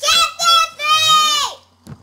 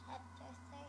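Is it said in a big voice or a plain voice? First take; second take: big; plain. First: It is said in a big, loud voice. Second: It is said in a plain, ordinary voice.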